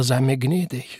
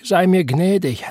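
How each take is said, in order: First: Said in the usual way. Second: Moaning. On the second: A narrator's reading. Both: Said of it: "Wieder stöhnte er".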